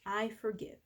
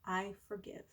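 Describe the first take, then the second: First: Softer I forgive; soft on the out-breath. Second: Much softer I forgive, almost breathed. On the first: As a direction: breathe it out gently. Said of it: "breathe out and say". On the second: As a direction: let it fade out with the breath. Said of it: "Breathe out". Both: Shown as a demonstration.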